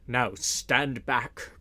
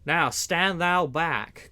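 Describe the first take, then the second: First: Slow, commanding order to the crowd; mighty voice. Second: Slow, loud warning shout; angry cry. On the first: Sheriff orders the pressing crowd back, slow and commanding. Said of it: "cried the sheriff in a mighty voice". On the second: Man-at-arms shoves back at Little John, loud and slow. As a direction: shove the words back at him, slowly. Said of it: "cried one of the men-at-arms". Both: A narrator's reading.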